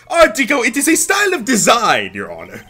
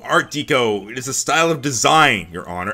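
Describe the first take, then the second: First: It is said in a French accent. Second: It is said in a plain accent.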